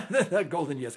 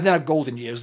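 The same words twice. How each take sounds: First: Repeating "not golden years" through a chuckle; laughing. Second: Said in the usual way. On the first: Real, not acted. Host joking to his guest about aging, laughing. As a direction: laugh the words out, amused at himself. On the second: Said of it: "I'm in my golden freaking years".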